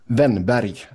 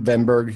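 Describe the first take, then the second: First: The name ends with a 'barry' sound. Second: The name ends with a 'berg' sound. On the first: This is the native pronunciation of the name. "give us the proper one more time" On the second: This is an Americanized pronunciation of the name. "for the American pronunciation"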